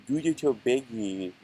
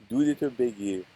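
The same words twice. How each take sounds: No difference in how they are said.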